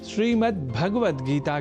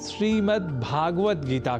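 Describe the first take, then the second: First: The first vowel of Bhagavad is short. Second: The first vowel of Bhagavad is long. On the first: The speaker calls it right. "श्रीमद् भगवत गीता के स्थान पर" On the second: The speaker calls it wrong. "अतिरिक्त स्वर को भी कई बार पदों में जोड़ लेते हैं"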